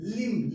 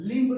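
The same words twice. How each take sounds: First: लिम्ब said as "lim"; silent B in लिम्ब. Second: लिम्ब with a released b at the end, louder; B sounded in लिम्ब. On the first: Teacher giving the right reading, final b silent. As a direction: end लिम्ब on m, no b. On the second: Teacher warning students off the misreading, final b pronounced. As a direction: say लिम्ब wrongly, finishing on b. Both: Shown as a demonstration. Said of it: "लिम्ब नहीं".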